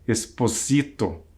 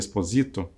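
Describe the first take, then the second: First: The name is said with an Italian pronunciation. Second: The name is said with a Brazilian Portuguese pronunciation. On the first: "Se talvez tenha uma pronúncia diferente" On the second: "no português brasileiro chamaríamos de Esposito"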